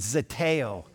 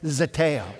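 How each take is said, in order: First: The word is said with ordinary, moderate force. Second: The word is said with noticeably more force. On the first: "say it with me" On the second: "with just a little more strength"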